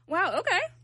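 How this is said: It sounds mocking and sarcastic.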